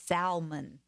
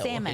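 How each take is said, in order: First: It is said the Southern US way. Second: It is said the standard way. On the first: The speaker calls it wrong. "when people down south say salmon" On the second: The speaker calls it right.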